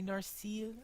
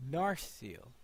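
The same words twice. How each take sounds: First: Narsil with a long stretched second syllable; wrong stress. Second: Narsil stressed on NAR, first syllable; corrected stress. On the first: Player trying the name Narsil, stress on the end. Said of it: "that seems to be putting the accent wrong". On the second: Player correcting the name Narsil, stress on NAR. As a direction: put the weight on NAR in Narsil. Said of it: "I would thought it would be". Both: Shown as a demonstration.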